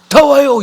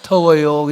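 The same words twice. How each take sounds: First: It is said harshly and abruptly. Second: It is said softly and gently.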